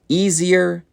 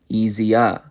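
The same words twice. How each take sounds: First: The final R sound is pronounced. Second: The final R sound is dropped.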